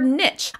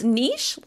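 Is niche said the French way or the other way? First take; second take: other; French. First: It is not said the French way. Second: It is said the French way. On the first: "or niche" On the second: "niche like the French"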